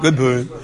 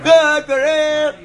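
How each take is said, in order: First: It is said quietly and weakly. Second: It is screamed loudly and happily.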